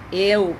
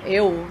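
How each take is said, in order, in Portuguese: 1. O L final soa como uma vogal w. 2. O L final soa como uma vogal w.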